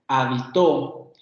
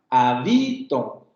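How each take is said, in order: First: The stress is on the last syllable. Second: The stress is on the second syllable. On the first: It means he lived somewhere, past tense. "si yo le pongo el acento en la última sílaba" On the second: It means I live somewhere, present tense. "si yo le pongo el acento en la segunda sílaba"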